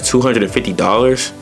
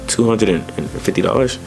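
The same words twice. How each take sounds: First: The voice is high and exaggerated, sounding shocked. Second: The voice is low and subdued, sounding concerned. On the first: The price sounds outrageously high. "Exaggerating a price" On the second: The speaker is worried about the cost. "being super low when you want to be concerned"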